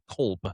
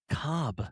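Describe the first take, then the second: First: The L is pronounced before the final B. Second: The L is silent, so it sounds like cob. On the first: This is how people in Arizona say it. The speaker calls it right. "we all call it Kolb" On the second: This is how people in Georgia say it. The speaker calls it wrong. "they call it Cobb"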